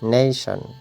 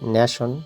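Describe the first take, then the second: First: The first vowel sounds like 'a' in day. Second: The first vowel sounds like 'a' in cat. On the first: The speaker calls it right. "সঠিক উচ্চারণ হচ্ছে নেশন" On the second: The speaker calls it wrong. "নিশ্চয়ই ন্যাশন"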